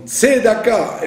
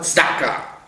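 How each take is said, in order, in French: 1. Une voyelle brève suit la première consonne. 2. La première consonne s'enchaîne directement avec le d. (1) "Comme Tzedaka" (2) "et pas Tzedaka"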